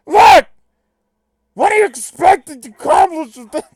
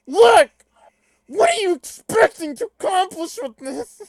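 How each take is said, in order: First: Loud, high, strained cartoon impression; botched impression, very loud and high; crappy Bender. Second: Loud, high, strained comic shout; hammed-up high-pitched impression; Bobcat Goldthwait. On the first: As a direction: shout it in a badly faked robot voice. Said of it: "Can I just do crappy Bender?". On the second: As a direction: yelp it out in an exaggerated high voice. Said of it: "Can I do Bobcat Goldthwait for Equius?".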